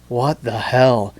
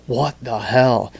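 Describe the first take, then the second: First: Drawn-out bewildered what the hell; slow mock disbelief. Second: Mock disbelief. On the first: Host acting out a viewer scrolling TikTok, slow stunned disbelief. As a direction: gawk at the screen, slowly. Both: Shown as a demonstration. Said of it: "Can you show that scroll motion again".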